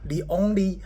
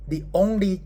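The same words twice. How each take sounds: The two takes are said the same way.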